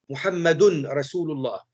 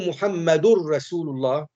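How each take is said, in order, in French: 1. Le n est conservé devant le r. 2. Le n fusionne complètement dans le r.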